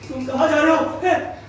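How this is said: The line is spoken in a scared voice. "डर के बोलना है तो कैसे बोलेंगे"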